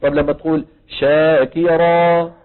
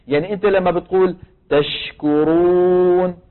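First: The ش in شاكرا short, passing; شاكرا said slowly with a light ش; tafashi demo. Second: The ش in تشكرون hissed clearly; slow تشكرون with a clear ش; tafashi demo. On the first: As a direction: let ش in شاكرا move quickly. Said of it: "مين أوضح؟". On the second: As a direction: spread the air on ش in تشكرون. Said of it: "فيها تفشي ولا لا؟". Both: Shown as a demonstration.

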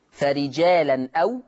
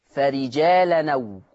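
First: فرجالا أو with tanween n, then separate glottal أو; hamza sounded. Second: فرجالا أو run together slowly as farijaalanaw; naql. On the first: Teacher showing the written form, فرجالا أو with hamza. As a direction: keep the hamza of أو after فرجالا. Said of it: "تقرأ". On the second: Teacher demonstrating naql, فرجالا أو joined without hamza. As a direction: drop the hamza, join فرجالا أو through the n. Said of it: "بالنقل". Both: Shown as a demonstration.

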